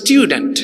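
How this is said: It is said with a British accent. The speaker calls it right. "কিন্তু উচ্চারণ হবে স্টুডেন্ট"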